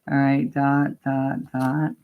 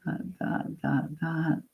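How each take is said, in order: First: Said in the usual way. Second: Whispered counting. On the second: Shown as a demonstration. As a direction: whisper "Dot, dot" softly under the breath. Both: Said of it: "you're gonna go dot".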